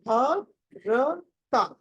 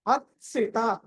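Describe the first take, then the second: First: భర్త very slow, ending on a complete ta syllable; full final taa. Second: భర్సిత as bhart-si-ta, the t cut to a half sound. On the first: Teacher contrasting for a student, భర్త with full ta. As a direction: break భర్త into bhar-ta, full vowel at the end. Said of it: "భర్తలో తా పూర్తిగా ఉంటుంది". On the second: Teacher answering a student, భర్సిత with half t blended into si. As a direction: let the half t merge into si in భర్సిత. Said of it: "ఇక్కడ సగం అన్నారు". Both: Shown as a demonstration.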